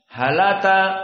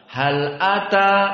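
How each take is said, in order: First: The glottal stop is dropped and the words link. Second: A glottal stop separates the two words. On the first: This is a different reading tradition's version. "tetapi halata" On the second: This is the common reading learners have memorized. "bukan hal ata seperti qiraah yang kalian hafal"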